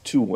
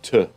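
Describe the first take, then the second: First: The word has a full 'oo' vowel. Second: The word has a reduced schwa vowel. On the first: The speaker calls it wrong. "We pronounce the tu as tu" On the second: The speaker calls it right. "not t, because it is pronounced with the t, with a schwa sound"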